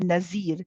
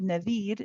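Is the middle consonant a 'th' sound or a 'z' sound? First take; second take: z; th. First: The middle consonant is a buzzing 'z' sound. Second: The middle consonant is a soft 'th' sound. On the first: The speaker calls it wrong. "A common mistake sometimes in some uh, cultures is to say Nazir" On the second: The speaker calls it right. "it's a the the the"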